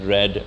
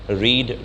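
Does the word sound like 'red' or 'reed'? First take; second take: red; reed. First: The vowel is short, like in 'red'. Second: The vowel is long, like in 'reed'. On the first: It is the past form of the verb. "Spelling same रहती है, उच्चारण बदल जाता है" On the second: It is the present form of the verb. "Spelling same रहती है, उच्चारण बदल जाता है"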